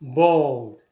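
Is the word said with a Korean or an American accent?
American. Smooth and resonant, with a soft, uncut L sound. "영어에서는 bold, bold 이렇게 난단 말이에요"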